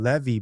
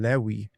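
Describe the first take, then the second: First: The middle consonant is a V sound. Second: The middle consonant is a W sound. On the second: This matches the Yemenite reading tradition. "he's saying Kohen Lewi ben Yisrael"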